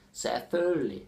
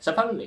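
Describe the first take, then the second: First: "Selvfølgelig" with a long first part and reduced ending; dialect variant. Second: "Selvfølgelig" high, loud and squashed short; dialect pronunciation. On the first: Teacher showing another dialect's "Selvfølgelig", drawn out and reduced. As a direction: stretch "Selvfølgelig" out, dropping the middle consonants. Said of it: "depending on the dialect". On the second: Teacher imitating how some people say "Selvfølgelig", squashed and high. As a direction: rush "Selvfølgelig" into a few swallowed syllables, pitched up. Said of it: "Some are like". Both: Shown as a demonstration.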